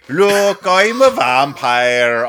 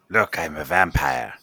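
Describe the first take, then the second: First: It is said in a put-on character voice. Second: It is said in his normal voice.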